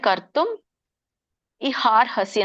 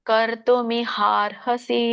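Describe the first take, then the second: First: The words are split with a break after kartum. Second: The words run together as one continuous word. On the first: "split ಮಾಡಿ ಹೇಳ್ಬೋದು" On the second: "ಕೂಡಿ ಹೇಳೋರು ಕೂಡಿ ಹೇಳಿ"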